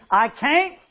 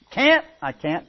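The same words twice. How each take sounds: First: "can't" said higher, with a drawled vowel like "cain't"; drawled regional can't. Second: Said in the usual way. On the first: Shown as a demonstration. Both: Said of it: "How do y'all say it over here?".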